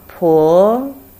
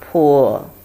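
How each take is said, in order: First: It is said with the second tone. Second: It is said with the third tone. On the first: "Second tone" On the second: "Third tone"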